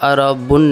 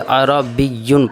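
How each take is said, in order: First: It is said plainly with no 'y' sound after 'b'. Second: It is said with 'b' joined to a doubled 'y'. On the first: The speaker calls it wrong. "इसको सीधा अरबुन नहीं पढ़ेंगे" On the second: The speaker calls it right. "बल्कि अरबियुन पढ़ेंगे"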